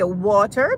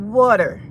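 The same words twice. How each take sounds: First: It is said in a British accent. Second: It is said in an American accent. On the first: "If you speak, you know, proper English, you'll say water" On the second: "if you're American, you'll say water. Like W A D E R"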